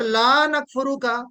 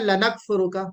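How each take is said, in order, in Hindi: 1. पहला स्वर लंबा खींचा जाता है। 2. पहला स्वर छोटा काटा जाता है।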